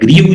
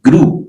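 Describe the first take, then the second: First: It has an 'ee' vowel and a final 'v'. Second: It has an 'oo' vowel with no final consonant. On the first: The speaker calls it wrong. "ग्रीव जो है वो पढ़ते रहे हैं पहले आप तो वो गलत है" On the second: The speaker calls it right. "Correct pronunciation क्या है ग्रू"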